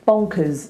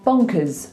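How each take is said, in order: First: The final syllable has a short, reduced vowel. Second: The final syllable has a short, reduced vowel.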